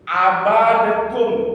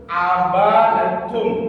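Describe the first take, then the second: Both takes have the same delivery.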